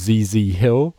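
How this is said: The letters are said the American way. "I'm using the American pronunciation of ZZ Hill"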